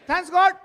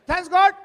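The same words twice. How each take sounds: Both takes have the same delivery.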